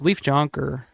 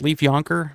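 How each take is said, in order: First: The surname begins with a sounded J. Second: The surname begins without a J sound. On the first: "I think it's how you pronounce it" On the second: "I think the J may be silent"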